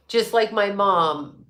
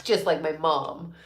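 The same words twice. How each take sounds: First: Just like my mom drawn out, each word slow; slow repeat. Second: Said in the usual way. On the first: Real, not acted. Repeating a viewer's comment to the chat, slow and amused. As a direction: savour Just like my mom slowly. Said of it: "Just like my mom, right?". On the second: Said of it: "She's like".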